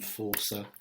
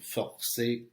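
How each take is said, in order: First: It is said the English way, ending in er. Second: It is said the French way, ending in é. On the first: The speaker calls it wrong. "rather than" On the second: The speaker calls it right. "make sure you're making them sound French"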